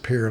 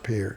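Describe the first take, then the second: First: The name is said the local way. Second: The name is said as it is spelled. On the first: This is how people there say it. The speaker calls it right. "they pronounce it Pierre" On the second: This follows the spelling. The speaker calls it wrong. "not Pierre"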